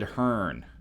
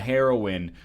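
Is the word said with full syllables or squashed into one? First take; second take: squashed; full. First: The word is squashed into one syllable. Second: The word is said with all its syllables.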